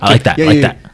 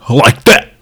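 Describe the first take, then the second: First: It is said casually, without much force. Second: It is said forcefully, from the chest. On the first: The speaker calls it wrong. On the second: The speaker calls it right.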